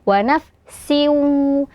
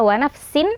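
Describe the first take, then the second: First: The final n merges into a nasal w. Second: The final n is pronounced clearly. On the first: The speaker calls it right. "akan tetapi dibaca wa nafsiu" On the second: The speaker calls it wrong. "bukan dibaca wa nafsin"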